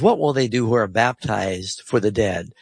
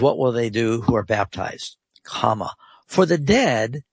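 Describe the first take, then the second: First: It runs on without a break after baptized. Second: It breaks as a question after baptized.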